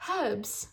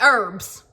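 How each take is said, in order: First: Soft, British-style "Herbs" with breathed h; English accent. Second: "Herbs" said loud with silent h and hard r; harsh American herbs. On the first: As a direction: say it gently in an imitated English accent. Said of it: "I love the way they say herb". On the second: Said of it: "It's, like, so harsh". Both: Retold or imitated.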